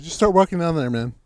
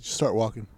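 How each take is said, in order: First: Louder, higher repeat of an order; insistent dismissal. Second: Said in the usual way. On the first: Retold or imitated. Storyteller sending his useless helper off down the road, insistent. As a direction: push the order with raised voice.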